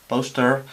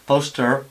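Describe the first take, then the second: No difference in how they are said.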